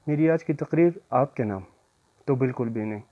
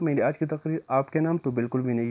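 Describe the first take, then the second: First: A one- or two-second pause precedes the ending. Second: It runs on without a pause before the ending.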